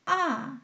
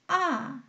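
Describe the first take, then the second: First: The pitch drops sharply from high to low. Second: The pitch drops sharply from high to low.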